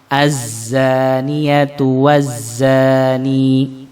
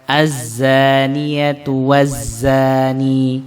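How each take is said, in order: The two takes are said the same way.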